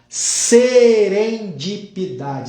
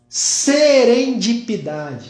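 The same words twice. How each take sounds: First: The word is said slowly and deliberately. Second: The word is said at normal speed.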